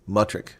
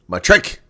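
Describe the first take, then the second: First: The stress is on the first syllable. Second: The stress is on the second syllable. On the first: The speaker calls it wrong. "that sounds horrible" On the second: The speaker calls it right. "The emphasis is on trick"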